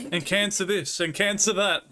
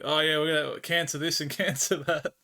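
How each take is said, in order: First: Laughing while mimicking his cancer talk; sing-song mockery of his chat-up lines; laughing mock rattle of cancer this and that. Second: Mocking imitation. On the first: Mocking the Frenchman's chat-up talk.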